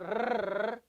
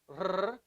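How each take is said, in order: First: The r is rolled with the tongue tip in front. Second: The r is rolled at the back of the throat. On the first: The speaker calls it wrong. "not Spanish R" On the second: The speaker calls it right. "but from the back"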